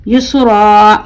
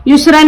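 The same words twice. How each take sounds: First: "युसरा" ending on a long held aa, no n; madd ending. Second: "युसरन" with a sounded -an at the end. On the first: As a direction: stretch the last vowel of "युसरा" like a madd letter. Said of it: "हुर्फ मद्दा बन जाएगा". ("युसरा" आख़िर में मद, खींच कर) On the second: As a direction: close "युसरन" on a clear n. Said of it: "युसरन नहीं पढ़ेंगे". ("युसरन" आख़िर में नून के साथ) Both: Shown as a demonstration.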